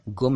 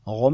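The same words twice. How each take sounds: First: गुम as gum, clean g; correct hard G. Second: गुम as ghum, throaty start; wrong nukta sound. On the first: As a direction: say गुम with a stopped g. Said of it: "गुम है". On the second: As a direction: say गुम with a fricative gh. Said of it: "गुम नहीं है". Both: Shown as a demonstration.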